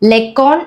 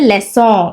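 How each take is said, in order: First: The middle consonant is a K sound. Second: The middle consonant is an S sound. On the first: The speaker calls it wrong. "ലെക്കോൺ എന്ന് വായിക്കുന്നത്" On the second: The speaker calls it right.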